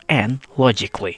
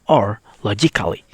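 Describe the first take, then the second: First: The A in the ending is silent. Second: The A in the ending is sounded. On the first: The speaker calls it right. "we only have to read" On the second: The speaker calls it wrong. "You not read it like"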